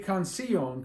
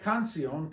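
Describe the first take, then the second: First: The stress falls on the i sound. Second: The stress falls on the first syllable, can. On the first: "What happens if you put it on the I? It'd be canción" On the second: "We don't say canción"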